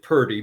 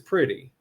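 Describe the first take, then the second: First: The word is said in a relaxed dialect form. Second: The word is said in its standard form. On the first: This is how people actually say it aloud. "we may pronounce it purdy" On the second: This is how the word is properly spelled. "the word is pretty"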